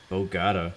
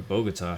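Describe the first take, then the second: First: Bogota said "bo-GAH-tuh"; Bogota stressed mid-word. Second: Bogota said "bo-guh-TAH"; Bogota stressed at end. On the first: Pilot guessing the city's name, Bogota as "bo-GAH-tuh". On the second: Pilot offering another guess at the city, Bogota as "bo-guh-TAH". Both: Shown as a demonstration. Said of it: "however you say it".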